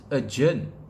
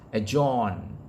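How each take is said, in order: First: The second syllable sounds like 'ur' in urgent. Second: The second syllable does not sound like 'ur'. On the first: The speaker calls it right. "The correct pronunciation is adjourn, right? Sounds like uh, U R G E N T" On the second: The speaker calls it wrong. "people uh, pronouncing it pronouncing it as adjourn"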